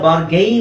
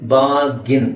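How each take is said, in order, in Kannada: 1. ಕೊನೆಯ ಉಚ್ಚಾರಾಂಶ 'gain' ತರ ಕೇಳಿಸುತ್ತೆ. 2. ಕೊನೆಯ ಉಚ್ಚಾರಾಂಶ 'gin' ತರ ಕೇಳಿಸುತ್ತೆ. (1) "ಇದನ್ನ ಬಾರ್ಗೈನ್ ಅಂತ ಅನ್ಕೊಂಡಿದ್ದಾರೆ ತುಂಬಾ ಜನ" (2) "ಕರೆಕ್ಟ್ ಪ್ರೊನೌನ್ಸಿಯೇಷನ್ ಬಂದು ಬಾರ್ಗಿನ್"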